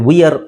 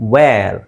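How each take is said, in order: First: It is two syllables, starting with 'vee'. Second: It is one syllable, like 'vair'. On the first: The speaker calls it wrong. "ವಿಯರ್ ಅಲ್ಲ" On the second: The speaker calls it right. "ನಾವು ಅದನ್ನು ವೇರ್ ಅಂತ ಹೇಳ್ತೀವಿ"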